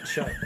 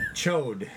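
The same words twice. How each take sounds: First: "chud" said with a short uh vowel, like mud; "chud" rhyming with mud, not chode; wrong pronunciation. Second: "Chode" said with a long o, rhyming with road; "Chode" stretched with an oh vowel; correct pronunciation. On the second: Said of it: "It's not chud". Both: Shown as a demonstration.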